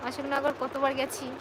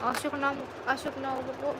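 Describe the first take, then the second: First: Said in the usual way. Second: অশোকনগর tripped over, the ending garbled; soft, tongue-tied অশোকনগর that won't come out right; stumbling pronunciation. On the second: Real, not acted. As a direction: fumble the word অশোকনগর and trail off on it. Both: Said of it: "মুখে উচ্চারণ হচ্ছে না কেন?".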